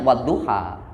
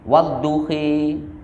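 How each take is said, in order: First: The final vowel is a plain open a sound. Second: The final vowel is bent toward an e sound. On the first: This follows the familiar local reading tradition. "Kalau kita membacanya wadduha" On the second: This follows a different recognized reading tradition. "setiap kali ada alif layyinah maka dibaca imalah"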